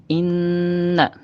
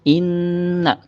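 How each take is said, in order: The two takes are said the same way.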